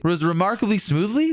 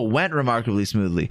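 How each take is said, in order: First: Questioning rise on smoothly, rereading a misread line; puzzled rereading. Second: Said in the usual way. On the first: Real, not acted. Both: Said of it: "That, that, oh".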